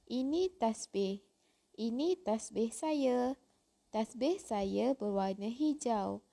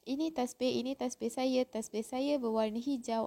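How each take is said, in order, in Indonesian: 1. Setiap kalimat diakhiri dengan jeda tanda titik yang jelas. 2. Kalimat-kalimat disambung tanpa jeda tanda titik. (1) "Awak kena baca ikut dia punya tanda ah, noktah" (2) "awak tak boleh baca ... tak boleh gitu"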